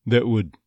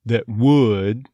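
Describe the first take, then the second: First: "would" short and unstressed, no off-glide; throwaway "would". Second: "would" stretched with an off-glide toward schwa; stressed "would". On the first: Coach shows the unstressed form, throwaway "would". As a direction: toss off "would" quickly after "That". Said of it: "gonna be a throwaway". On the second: Coach shows the strong form, gliding "would". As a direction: lean on "would", sliding into uh. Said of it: "off glide from the would". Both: Shown as a demonstration.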